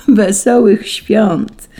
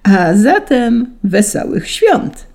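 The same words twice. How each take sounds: First: Very slow, high, loud greeting; merry, laughing tone. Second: Slow, high, festive greeting; broad smile. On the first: Angels merrily returning Saint Peter's greeting, drawn-out joy. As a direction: stretch the greeting out joyfully. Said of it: "zaśmiały się anioły". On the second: Saint Peter greeting the angels, broad smiling proclamation. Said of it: "uśmiechnął się szeroko". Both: A narrator's reading.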